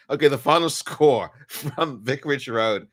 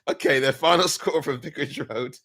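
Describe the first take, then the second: First: Score read cracking up with laughter; laughing take. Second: Said in the usual way. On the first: Real, not acted. Fan's third attempt at the score, laughing. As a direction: try to read it but laugh breaks in. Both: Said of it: "I just cannot do this".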